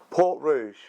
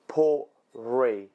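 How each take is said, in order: First: The second word is said like 'roozh'. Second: The second word is said like 'ree'. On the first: The speaker calls it wrong. "No, it's not. Don't lie to me" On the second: The speaker calls it right. "That's how you pronounce it"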